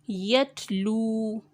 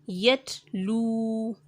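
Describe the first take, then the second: Both takes have the same delivery.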